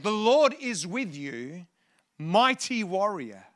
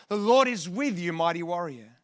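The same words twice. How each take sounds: First: Drawn out, deliberate angel's greeting; slow proclamation. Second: Said in the usual way. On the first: Retold or imitated. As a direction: proclaim it slowly, stretching the words. Preacher proclaims the angel's words.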